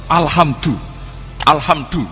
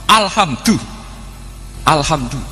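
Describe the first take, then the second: No difference in how they are said.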